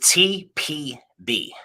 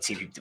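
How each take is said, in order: First: The letters are spoken slowly and distinctly. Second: The letters are spoken quickly and run together. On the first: The speaker calls it right. "say nice and slow" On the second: The speaker calls it wrong. "if I say too fast"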